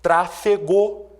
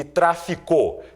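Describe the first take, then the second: First: "Trafegou" said slowly, syllable by syllable; slow teaching word. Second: "traficou" said slowly, each syllable clear; slow teaching word. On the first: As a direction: set out "Trafegou" carefully for the class. ("Trafegou" dito devagar, sílaba por sílaba) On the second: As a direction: set "traficou" against "Trafegou" deliberately. ("traficou" dito devagar e claro) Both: Shown as a demonstration. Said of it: "posso citar as seguintes palavras".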